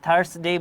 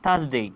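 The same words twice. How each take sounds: First: The r sound is pronounced. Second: The r sound is silent. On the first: The speaker calls it wrong. "আমরা থার্সডে বলবো না" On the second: The speaker calls it right. "আমরা বলবো থার্সডে"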